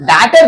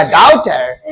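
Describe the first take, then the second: First: "डॉटर" wrongly said DAH-ter; mispronounced vowel. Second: "डॉटर" said DAW-ter, falling lower; corrected pronunciation. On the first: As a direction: open the first vowel of "डॉटर" to "ah". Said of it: "नहीं रे बाबा". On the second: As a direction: model "डॉटर" with a rounded "aw" vowel. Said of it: "डॉटर नहीं रे बाबा". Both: Shown as a demonstration.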